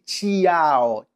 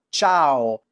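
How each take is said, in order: First: The i is sounded as its own vowel. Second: The i is silent, giving one smooth syllable. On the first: The speaker calls it wrong. "non dici ciao" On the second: The speaker calls it right. "non pronunci la I"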